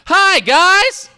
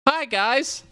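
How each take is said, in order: First: The greeting is said with lots of energy. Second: The greeting is said with little energy.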